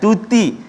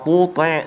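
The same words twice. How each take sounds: First: Both t-sounds are pronounced thin and light. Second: Both t-sounds are pronounced thick and heavy. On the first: "dua-dua nipis pula" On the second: "dua-dua dibaca tebal"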